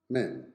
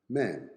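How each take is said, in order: Both takes have the same delivery.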